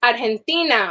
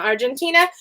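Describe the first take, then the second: First: Argentina said the Spanish way, "ar-hen-TEE-na"; Spanish pronunciation. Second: Argentina said the English way, "ar-jen-TEE-na"; English pronunciation. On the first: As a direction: say Argentina with a breathy h for the g. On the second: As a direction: say Argentina with a j sound for the g. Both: Shown as a demonstration. Gives Spanish name, then English.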